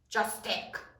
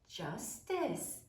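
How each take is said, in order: First: The C is said as a hard K sound. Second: The C is said as a soft S sound. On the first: The speaker calls it wrong. "we don't say" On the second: The speaker calls it right. "Smooth and soft"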